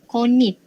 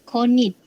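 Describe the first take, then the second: The two takes are said the same way.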